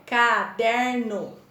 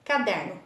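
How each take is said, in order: First: CA - DER - NO, slow and stretched; teacher sounding out CA-DER-NO; split into syllables. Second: Said in the usual way. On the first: Shown as a demonstration. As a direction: say caderno in three slow beats, CA, DER, NO. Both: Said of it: "três pedacinhos".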